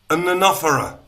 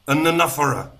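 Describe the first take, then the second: First: The words are squished together and reduced. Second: The words are squished together and reduced.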